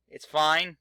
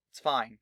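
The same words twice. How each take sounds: First: Louder insisting it's fine; fine said loud to convince yourself; forced cheer on fine; emphatic. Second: Said in the usual way. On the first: Shown as a demonstration.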